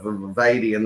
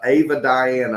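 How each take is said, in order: First: The name is said as one smooth word. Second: The name is split like two first names. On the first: The speaker calls it right. "instead of Avadian" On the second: The speaker calls it wrong. "They go um, Avad, uh, Ava Diane"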